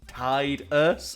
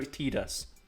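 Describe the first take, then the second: First: The first syllable sounds like the word 'tide'. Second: The first syllable does not sound like 'tide'. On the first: The name is built on the word for the tide. "his name is Tide. Tide-us" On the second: This is the officially given pronunciation. "And no, it's Tidus"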